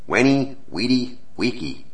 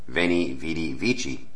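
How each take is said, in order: First: Each word starts with a W sound. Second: Each word starts with a V sound. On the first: This is the classical form taught in school. "the Wenny, Weedy, Weeky that I was taught in high school is what is called Classical Latin" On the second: "she was reading Veni, Vidi, Vici in ecclesiastical Latin"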